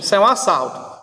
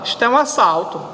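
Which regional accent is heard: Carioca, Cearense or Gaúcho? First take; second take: Cearense; Gaúcho. First: It is said in a Cearense accent. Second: It is said in a Gaúcho accent.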